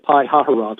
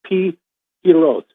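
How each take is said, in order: First: The name is said with a middle 'ha' syllable. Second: The name is said without a middle 'ha' syllable. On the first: The speaker calls it wrong. "which is the way I've been saying it" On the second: The speaker calls it right. "somebody actually sent me the pronunciation of this today. It's Pi Hiroth"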